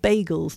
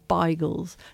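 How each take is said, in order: First: It is said in a Lithuanian Yiddish accent. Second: It is said in a Polish Yiddish accent.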